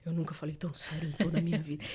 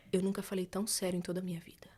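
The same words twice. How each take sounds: First: Lightly lower, solemn imitation of Fernando; Fernando's way. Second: Soft unvoiced whisper, dead serious; whispered earnest vow. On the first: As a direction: say it low and grave like him. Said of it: "vocês conhecem o Fernando falando". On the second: Boyfriend swears he is serious, whispered. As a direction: whisper it, solemn.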